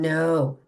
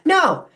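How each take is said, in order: First: It is said in a low, grounded voice. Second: It is said sharply, like a bark.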